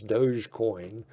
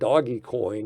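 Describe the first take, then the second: First: The first part sounds like 'dohj'. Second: The first part sounds like 'doggy'. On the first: The speaker calls it right. "I think the correct pronunciation is Dogecoin" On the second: The speaker calls it wrong. "is what I call it"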